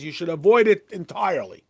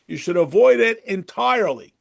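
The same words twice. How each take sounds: First: Said in the usual way. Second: "avoid" pressed hard, a little louder, falling firmly; emphatic repeat. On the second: Real, not acted. Rabbi warns the class against haughtiness, emphatic stress on "avoid". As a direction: lean on "avoid" to drive the warning home.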